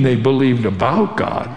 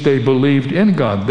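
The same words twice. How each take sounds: First: "about" stressed as the mistaken alternative. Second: "in" stressed, falling to a firm close. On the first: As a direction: lean on "about" to set up a contrast. Contrasts believing about with believing in. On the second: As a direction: punch the word "in" as the correction. Contrasts believing in with believing about. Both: Shown as a demonstration.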